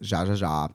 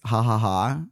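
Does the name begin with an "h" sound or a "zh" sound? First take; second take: zh; h. First: Each syllable starts with a buzzing zh sound. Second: Each syllable starts with a breathy h sound. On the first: The speaker calls it wrong. "I'm probably saying that wrong" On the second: The speaker calls it right. "I think it's ha ha ha because it's Spanish"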